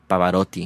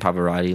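First: It is said with an Italian accent. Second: It is said with an American English accent. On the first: The speaker calls it right. "pronounced like Pavarotti" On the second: The speaker calls it wrong. "rather than Pavarotti"

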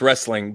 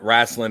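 First: The first vowel is an 'eh' sound. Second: The first vowel is an 'ah' sound. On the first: This is the standard form. "technically it's wrestling" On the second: This is the folksy Southern form. "wrestling is what the old boys call it"

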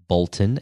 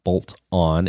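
First: It is said as one word, like a name. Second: It is said as two separate words. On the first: It is a surname. The speaker calls it right. "as in the name" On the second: It means attaching something. The speaker calls it wrong. "not bolt on"

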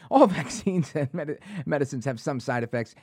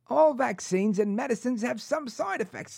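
First: It is said in the speaker's ordinary accent. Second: It is said in a put-on British accent. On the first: "No, anyway" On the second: "I think I found it. There it is. I found it"

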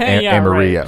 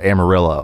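First: It is pronounced the Spanish way, with a Y sound. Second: It is pronounced the English way, with an L sound. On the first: "and not Amarillo" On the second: "in a town called Amarillo"

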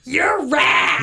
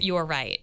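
First: It is whispered in a breathy, seductive voice. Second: It is said in a normal speaking voice. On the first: "whisper it and kind of be sexy about it" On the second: "one more time"

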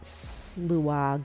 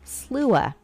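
First: The word ends with a g sound. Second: The word ends without a g sound. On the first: The speaker calls it wrong. "Let me see if I'm pronouncing this right" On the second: The speaker calls it right. "it's just Slua"

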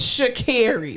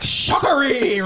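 First: The name is said in an American accent. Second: The name is said in a Caribbean accent. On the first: This is how the name's owner says it. The speaker calls it right. "it's Sha'Carri" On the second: An announcer mispronounced the name. The speaker calls it wrong. "you could tell the man was from the Caribbean, and the way he said her name"

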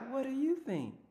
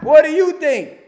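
First: It is said softly and gently. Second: It is said bluntly and harshly.

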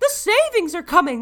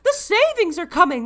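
First: It is said with over-the-top excitement. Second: The same.

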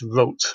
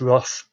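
First: The name is said German-style without a rolled R. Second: The name is said with an English pronunciation. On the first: "pronounced his surname as he would have done" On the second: "I think we can say Joseph Roth"

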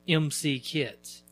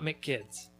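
First: The first part is said as two letters, em-see. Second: The first part is said as one syllable, mick. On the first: The speaker calls it right. "That's pronounced MC kids. Like E-M-C-E-E kids" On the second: The speaker calls it wrong. "not McKids"

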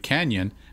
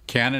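First: The middle consonant is an ny sound. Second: The middle consonant is a plain n sound. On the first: The speaker calls it right. "It should be Canyon" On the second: The speaker calls it wrong. "And there's Cannon. Cannon in Beverly Hills"

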